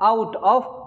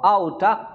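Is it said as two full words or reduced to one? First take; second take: full; reduced. First: It is said as two full words. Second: It is reduced to one word ending in 'uh'.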